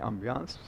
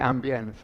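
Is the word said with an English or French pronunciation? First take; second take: French; English. First: The word is said with a French pronunciation. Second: The word is said with an English pronunciation. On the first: "I'm saying ambiance because it's French" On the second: "You probably say ambience"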